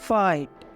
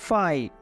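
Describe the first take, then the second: Both takes have the same delivery.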